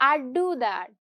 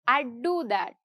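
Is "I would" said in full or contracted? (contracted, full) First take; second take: contracted; contracted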